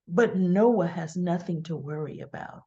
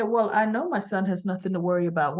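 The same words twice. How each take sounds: First: Low, sly imitation; Audra's side-mouth insinuation. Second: Said in the usual way. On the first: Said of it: "like, out of the side of the mouth". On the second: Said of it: "I would have said".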